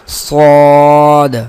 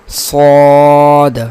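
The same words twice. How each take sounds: The two takes are said the same way.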